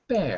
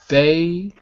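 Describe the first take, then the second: First: The word is said quickly as one syllable. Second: The word is said slowly, drawn into two parts.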